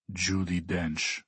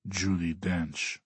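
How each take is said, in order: First: Slow, softer, bored reply; drawn-out, low-energy boredom; yawning answer. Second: Very slow, softer repeat; unhurried, understated insistence; insisting. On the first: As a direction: answer as if through a mild yawn. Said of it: "answers with a yawn". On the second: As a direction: insist quietly, drawing out the name. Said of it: "Alexei insists". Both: A narrator's reading.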